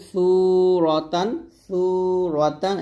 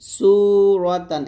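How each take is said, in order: First: Tongue on upper teeth to begin সুরতান; thin tha. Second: সুরতান with whistling S, drawn out; sharp sin. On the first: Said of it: "সু বলতে হবে পাতলা করে". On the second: Teacher contrasting similar letters, সুরতান with sharp S. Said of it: "এরকম". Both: Shown as a demonstration.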